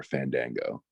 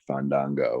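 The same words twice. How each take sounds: First: "Fandango" pronounced Fan-dang-go; Fandango with short "a". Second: "Fandango" pronounced Fahn-dahn-go. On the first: Wrestler contrasting ways to say his name, "Fandango" as Fan-dang-go. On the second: Wrestler showing how he said his name, "Fandango" as Fahn-dahn-go. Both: Shown as a demonstration. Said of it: "didn't like the way I said".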